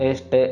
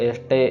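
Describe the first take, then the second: Both takes have the same delivery.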